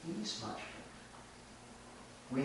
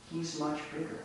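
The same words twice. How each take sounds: First: Quiet aside. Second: Said in the usual way. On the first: Shown as a demonstration. Repeating the goat's offer to the listeners, hushed aside. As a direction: drop it to a sly hush.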